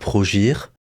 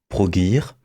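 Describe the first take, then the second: First: The name is pronounced with French sounds. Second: The name is pronounced with English sounds. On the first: The speaker calls it wrong. "une bonne prononciation à la française" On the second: The speaker calls it right. "si on prononce correctement"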